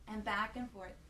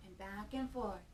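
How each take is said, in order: Both takes have the same delivery.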